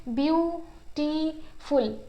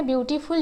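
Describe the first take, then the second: First: beautiful slowly split into its syllables, pausing between each. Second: Said in the usual way. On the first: Shown as a demonstration. Teacher showing students a multisyllable word, slowly syllable by syllable. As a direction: stretch out beautiful, one syllable at a time. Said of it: "इसमें हम रुक रुक के तीन जगह पर रुक रहे हैं". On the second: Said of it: "इसमें हम रुक रुक के".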